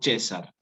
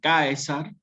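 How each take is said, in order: First: The word is said in ecclesiastical Latin style. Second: The word is said in classical Latin style. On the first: "se transforma y queda como César" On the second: "en latín clásico, esta palabra, tal cual como está escrita, va a ser Caesar"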